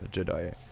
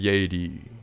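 First: The word is said with an English pronunciation. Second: The word is said with a German pronunciation.

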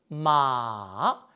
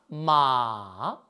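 First: The pitch goes low and dips, held long. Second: The same.

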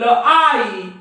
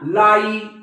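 First: The word is split into two separate sounds. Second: The word is said smoothly as one sound.

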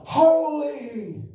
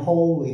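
First: It sounds awed and overwhelmed, full of feeling. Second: It sounds flat and mechanical, like a repeating recording.

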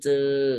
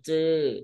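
First: The syllable is said with a level mid tone. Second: The syllable is said with a falling tone. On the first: "จออือจือ" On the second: "ไม้โท"

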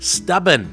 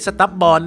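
First: The second syllable has a short, reduced vowel. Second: The second syllable has a full vowel, like 'born'. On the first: The speaker calls it right. "นั่นเองนะครับ" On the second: The speaker calls it wrong. "ไม่ใช่"

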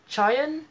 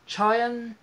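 First: The name begins with a 'ch' sound. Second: The name begins with a 'ch' sound.

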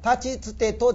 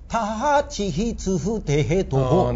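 First: Each syllable is said plainly, with no breath after. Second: Each syllable ends in a breathy h-sound. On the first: "タチツテトじゃなくて" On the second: "全部ハヒフヘホよ"

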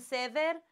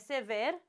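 First: The stress falls on the other syllable. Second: The stress falls on its usual syllable. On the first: The speaker calls it wrong. "Pot să spun sever? Nu. ... Le-am pronunțat invers" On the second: The speaker calls it right. "adică varianta A"

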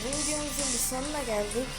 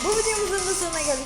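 First: The sentence is spoken at a slow pace. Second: The sentence is spoken at a fast pace.

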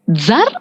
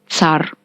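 First: The word begins with a dz sound. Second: The word begins with a ts sound. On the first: "може звучати у двох варіантах – як «дз» і як «ц»" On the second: "може звучати у двох варіантах – як «дз» і як «ц»"

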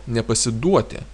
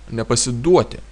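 The two takes are said the same way.

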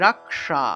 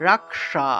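Both takes have the same delivery.

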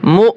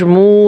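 First: The vowel is cut short with a push. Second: The vowel is drawn out long. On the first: The speaker calls it right. "ধাক্কা দিতে হবে" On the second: The speaker calls it wrong. "এভাবে টান দেওয়া যাবে না"

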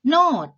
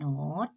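First: The syllable is said with a falling tone. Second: The syllable is said with a rising tone. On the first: "ไม่มีวรรณยุกต์นะคะ, พื้นเสียงเป็นเสียงโท" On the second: "เสียงเติมจัตวาเป็นเสียงจัตวา"

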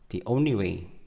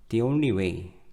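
First: The word 'the' is pronounced very weakly. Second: The same.

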